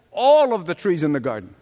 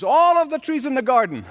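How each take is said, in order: First: "All" hit hardest, rest falling away; stress on ALL. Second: "All" punched up high, then falling; stress on ALL, higher. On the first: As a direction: lean into "All" to show the whole garden. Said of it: "You notice the emphasis where?". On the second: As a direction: lift "All" high to correct her emphasis. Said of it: "Where was God's emphasis?". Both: Shown as a demonstration.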